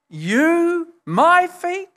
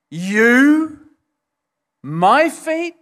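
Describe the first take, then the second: First: "You" and "my" pushed much higher in stunned disbelief; more incredulous. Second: "You" and "my" hit hard, louder and higher; emphatic disbelief. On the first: Peter repeating it, higher and more incredulous. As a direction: climb up on "my feet" as if you can't believe it. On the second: Peter recoiling as Jesus kneels at his feet, emphatic. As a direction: stress "You" then "my feet" in shocked disbelief. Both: Retold or imitated. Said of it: "in the Greek very emphatic".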